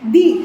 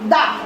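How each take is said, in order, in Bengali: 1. শব্দটি একটি 'ee' স্বরধ্বনি দিয়ে শেষ হয়। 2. শব্দটি একটি ছোট 'uh' স্বরধ্বনি দিয়ে শেষ হয়। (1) "যে ভাওয়েল দিয়ে শুরু হয় তার উচ্চারণ কি হবে দি" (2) "কনসোনান্ট দিয়ে শুরু হয়েছে, এজন্য আমরা কি উচ্চারণ করব দা"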